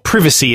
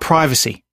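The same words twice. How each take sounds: First: It is said in an imitated, different pronunciation. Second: It is said in the speaker's ordinary pronunciation.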